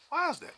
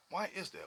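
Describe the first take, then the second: First: High, pleading question; rhetorical outcry. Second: Said in the usual way. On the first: Real, not acted. High rhetorical question to the audience. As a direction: cry out the question.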